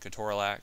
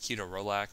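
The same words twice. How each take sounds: First: The word is given its everyday, casual pronunciation. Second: The word is given its careful, textbook pronunciation. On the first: This avoids sounding overly pedantic. "so I'll just keep saying ketorolac" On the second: This is the technically correct way to say it. "The actual proper way to say that is ketorolac"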